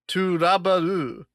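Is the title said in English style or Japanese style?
Japanese. It is said as Japanese syllables, toraburu.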